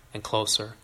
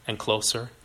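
Both takes have the same delivery.

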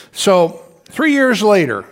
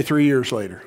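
First: Three years later drawn out slowly, three stressed; slow emphatic line. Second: Said in the usual way. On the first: Shown as a demonstration. Preacher slowing down so the church repeats three years later. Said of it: "everybody say three years later". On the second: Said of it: "everybody say".

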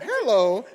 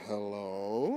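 First: HELLO high and loud, the jovial way; bright contrast hello. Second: HELLO low and very slow, rising only at the tail; imitated stern hello. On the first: Shown as a demonstration. Guest showing how host did not answer, jovial loud hello. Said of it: "it's not hello". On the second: Guest showing how host answered the phone, stern low hello. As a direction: drag "hello" out low, then curl it upward. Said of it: "it's hello".

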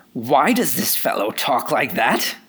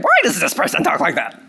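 First: A light sneer of a self-righteous critic; religious spirit impression. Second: More annoying religious spirit. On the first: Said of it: "impersonation of a, of a religious spirit". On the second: Retold or imitated. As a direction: make the religious critic more irritating. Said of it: "Maybe it's more annoying".

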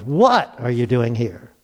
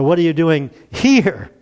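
First: "What" drawn out and set apart, the rest lower; stress on What. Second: "here" held long at the end; stress on here. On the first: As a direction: lean slowly on the word "What". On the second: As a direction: save the punch for a drawn-out "here". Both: Shown as a demonstration. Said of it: "You can emphasize different words".

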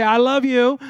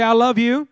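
First: Pumped-up church cheer; excited. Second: Said in the usual way. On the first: Shown as a demonstration. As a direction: say it loud and happy like you're buzzing on Red Bull. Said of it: "like you got Red Bull and you're happy". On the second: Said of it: "No, come on".

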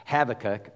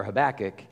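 First: "Habakkuk" as HAV-uh-kuk, stress on the first syllable. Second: "Habakkuk" as huh-BAK-ik, stress on the second syllable. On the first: Pastor saying the prophet's name, HAV-uh-kuk. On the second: Pastor giving the other pronunciation, huh-BAK-ik. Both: Shown as a demonstration. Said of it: "I probably will say it both ways".

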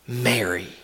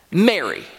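First: Low, soft, intimate naming of her; tender call. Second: Said in the usual way. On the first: Retold or imitated. Jesus gently calling the weeping Mary by name, low and soft. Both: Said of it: "a single word spoken in the right tone".

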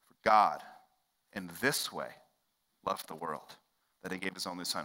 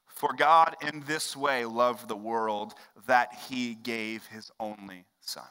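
First: "For God", "in this way", "loved the world" split by pauses; phrase by phrase. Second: Slow, measured reading of the verse; scripture reading. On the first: Shown as a demonstration. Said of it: "repeats verse phrase by phrase". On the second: Acted. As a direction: read the verse deliberately. Reading John 3:16 aloud.

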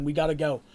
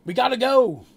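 First: Said in the usual way. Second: Loud, high shout to leave; urgent yell. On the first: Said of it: "Seraph's like". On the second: Acted. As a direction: yell to the group to get moving. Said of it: "yells Red".

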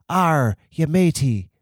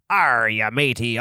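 First: Put-on softer pirate accent. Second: Standard stock pirate accent. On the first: [name] copies the host's pirate line, milder pirate accent. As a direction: try a pirate accent, tentatively. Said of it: "but softer". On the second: Shown as a demonstration. Host shows [name] the standard pirate accent, pirate voice. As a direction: give the generic pirate growl. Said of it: "could you do a pirate accent?".

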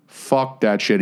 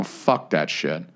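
First: Said in the usual way. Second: Low, slow, soft and resigned; muttered curse. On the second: Real, not acted. Griping to his cohost about the new bumper, low and slow. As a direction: let it drop out low and slow. Repeated curse, first take.

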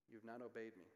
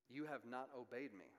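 First: Softer, weight on "obeyed" falling; second take, settled and soft; quiet repeat. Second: "You" stressed, rising before a fall; first take, pressed on "You"; emphatic quote. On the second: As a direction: lead with "You" and let it fall. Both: Shown as a demonstration.

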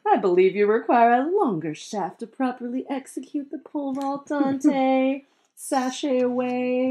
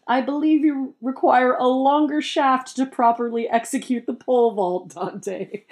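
First: High, sassy drag queen read; shady drag queen voice. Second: High haughty put-down voice; snooty voice. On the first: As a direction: throw shade like a drag queen. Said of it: "a shady drag queen voice". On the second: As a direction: deliver it like a snooty aristocrat. Crest speaks snarky line. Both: Acted.

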